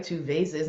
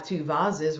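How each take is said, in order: First: Said in the usual way. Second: "vases" said as VAH-ziz; borrowed accent pronunciation. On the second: Retold or imitated. Coach borrows co-host's accent for "vases", saying VAH-ziz. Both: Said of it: "don't you love Sheena's accent".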